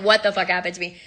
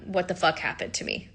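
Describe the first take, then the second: First: Said in the usual way. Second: Stunned quiet. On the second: Retold or imitated. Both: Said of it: "that was what I said".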